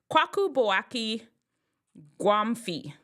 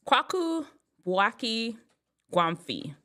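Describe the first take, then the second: No difference in how they are said.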